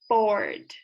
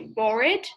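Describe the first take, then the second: First: The word is one syllable, no extra ending. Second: The ending is sounded as an extra syllable. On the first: The speaker calls it right. "you say bored" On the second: The speaker calls it wrong. "you don't say bored"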